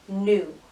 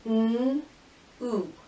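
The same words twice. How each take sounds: First: Said in the usual way. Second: "N-oo" as a held n, pause, then oo; sounded out. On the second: Shown as a demonstration. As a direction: separate the two sounds of "N-oo". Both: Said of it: "every sound you hear".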